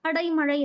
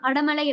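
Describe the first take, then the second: First: The second syllable ends in an 'ai' sound. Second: The second syllable ends in a plain 'a' sound. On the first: This is the correct written form. The speaker calls it right. "கரெக்ட்டா எழுதும்போது அடைமழை" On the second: This is the everyday spoken form. The speaker calls it wrong. "அடமழை அப்படின்னும் போது நம்ம pronounce"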